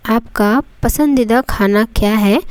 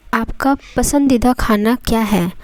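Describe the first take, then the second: No difference in how they are said.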